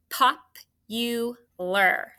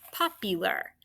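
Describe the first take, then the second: First: Popular drawn out very slowly, syllable by syllable; slow dictation. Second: Said in the usual way. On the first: Shown as a demonstration. Teacher dictating popular to the class, very slow and stretched. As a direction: stretch popular out so every sound is clear. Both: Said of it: "your word is".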